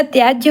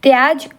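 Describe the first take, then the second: First: त्याज्य with a final jya; correct त्याज्य. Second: त्याज ending bluntly on j; wrong त्याज. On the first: Teacher gives the right form, त्याज्य with final ya. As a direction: add the y glide after j in त्याज्य. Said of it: "होता है". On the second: Teacher shows the wrong form, त्याज without final ya. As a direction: drop the final y sound in त्याज. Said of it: "नहीं होता है". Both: Shown as a demonstration.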